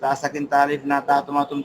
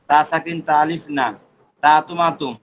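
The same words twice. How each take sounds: First: It is said in one breath without pauses. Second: It is read in groups of three with pauses. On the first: "এক নিঃশ্বাসে বলবো" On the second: "তিনটা তিনটা করে পড়বো"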